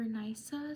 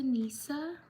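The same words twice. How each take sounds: First: Nisa said NY-suh; alternative pronunciation. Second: Nisa said NEE-suh; first guess at pronunciation. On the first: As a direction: say Nisa with an eye vowel, NY-suh. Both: Shown as a demonstration. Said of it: "sorry if I mispronounce your name".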